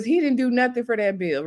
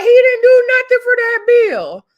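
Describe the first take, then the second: First: Said in the usual way. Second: High, loud exclamation of disbelief; outraged squawk at an undeserved boast; indignant retort. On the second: Retold or imitated. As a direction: protest it loudly, pitched way up. Indignant retort to Saucy's brag.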